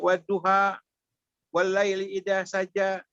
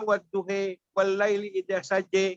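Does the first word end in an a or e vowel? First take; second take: a; e. First: The first word ends in an a vowel. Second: The first word ends in an e vowel. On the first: "kalau kita baca waduha" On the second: "Kalau sana waduhe"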